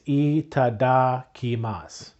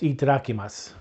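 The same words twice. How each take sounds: First: The word is said slowly and carefully. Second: The word is said at normal speed.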